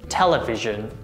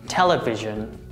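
Both takes have the same delivery.

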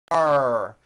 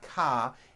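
First: It ends with a strong R sound. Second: It ends on an open vowel without R. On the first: The speaker calls it right. "Your tongue has to pull back, car" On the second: The speaker calls it wrong. "ending with an A vowel, but it's not ka"

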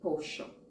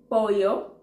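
First: The double-L is said like an 'sh' sound. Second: The double-L is said like a 'y' sound. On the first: "you're like, shh" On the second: "that's how I learned to say chicken"

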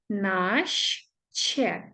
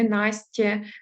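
First: The ending sounds like a soft 'shch' plus 'e'. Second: The ending sounds like a hard 'st' plus 'ye'. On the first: The speaker calls it right. "тому наще" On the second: The speaker calls it wrong. "ми впляємо не Настє"

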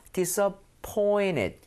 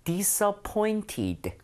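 First: The t before -ed is a quick flap. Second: The t before -ed is a clear t.

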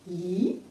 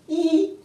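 First: The pitch rises from middle to high. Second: The pitch stays high and level.

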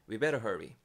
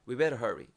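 First: The word had is dropped entirely. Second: The same.

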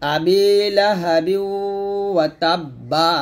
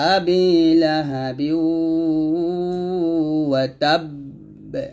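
First: The last word ends with a vowel sound. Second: The last word ends on a held, bounced consonant. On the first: The reader continues without stopping. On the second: The reader pauses at this point.

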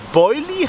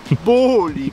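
First: The first vowel is the diphthong 'oi'. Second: The first vowel is a plain 'o'. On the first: This is the usual form of the word. "Statt Boilie" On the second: This is a slip that became a running joke. "hat er Boli gesagt"

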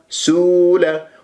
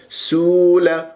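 No difference in how they are said.

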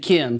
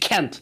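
First: The word is said with no T sound at the end. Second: The word is said with a clear T sound at the end. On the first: This is the American English way. "But in American English, you say can. T is silent" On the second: This is the British English way. "You can pronounce it in British English"

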